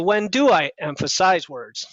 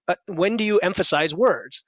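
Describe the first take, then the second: First: "I" in "when do I emphasize words" leaned on, shifting the emphasis from "you"; stress on I. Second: "you" in "when do you emphasize words" leaned on and falling; stress on you. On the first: Coach contrasting emphasis for a student, stress on "I". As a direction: push the weight onto "I". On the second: Coach showing a student where emphasis goes, stress on "you". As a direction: hit "you" and let it fall. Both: Shown as a demonstration. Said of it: "as opposed to when do I emphasize words".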